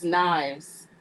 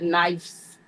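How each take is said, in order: First: The word is said with a v sound. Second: The word is said with an f sound. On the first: The speaker calls it right. "with a V" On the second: The speaker calls it wrong. "It's not"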